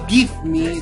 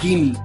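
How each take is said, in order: First: It is said as two separate clear words. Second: It is said fast, merged into one word.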